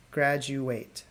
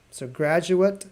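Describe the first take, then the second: First: Graduate said softer, GRAD-joo-wate, ending like ate; graduate, verb. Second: Graduate said GRAD-joo-it; graduate, noun. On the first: Teacher recapping verb graduate. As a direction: let graduate end on a soft ate. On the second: Teacher recapping noun graduate. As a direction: keep graduate's ending a short -it. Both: Shown as a demonstration. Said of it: "confusing in the pronunciation".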